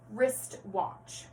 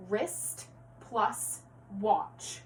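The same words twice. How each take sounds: First: Said in the usual way. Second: "wrist plus watch" very slow, a pause between each word; segmented compound. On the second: Shown as a demonstration. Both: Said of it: "going back to compound words".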